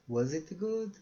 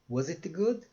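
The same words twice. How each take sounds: The two takes are said the same way.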